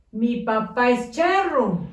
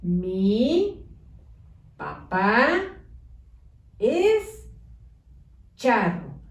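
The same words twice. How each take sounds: First: Words run together, no gaps; all squashed together. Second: Each word set apart with pauses; slow dictation, one word at a time; spaced words. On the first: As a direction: mash the words into one. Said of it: "pero está todo amontonado". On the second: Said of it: "Debe de decir". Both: Shown as a demonstration.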